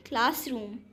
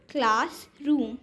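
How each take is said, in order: First: Said in the usual way. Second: classroom drawn out as class and रूम; syllable by syllable. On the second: Shown as a demonstration. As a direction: split classroom in two beats. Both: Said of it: "यहाँ पर words के syllable given हैं".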